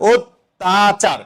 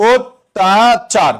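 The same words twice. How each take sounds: First: অত্যাচার slowly, with the t held double; teacher repeats অত্যাচার slowly for the class; drawn out. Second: অত্যাচার stretched very slowly, syllable by syllable; teacher slowly stretching অত্যাচার for the class; drawn out. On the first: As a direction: stretch অত্যাচার, leaning on the double t. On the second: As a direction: pull অত্যাচার out slowly, the way it is spoken. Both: Shown as a demonstration. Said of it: "যেভাবে বলবা সেভাবে".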